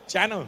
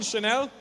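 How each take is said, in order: First: Channel like a TV channel, stressed up front; mispronounced Chanel. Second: Said in the usual way. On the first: Acted. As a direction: say Channel with a hard ch, first-syllable stress. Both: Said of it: "Do you mean Chanel?".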